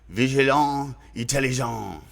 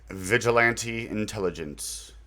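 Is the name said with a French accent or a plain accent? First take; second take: French; plain. First: It is said in a French accent. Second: It is said in a plain English accent.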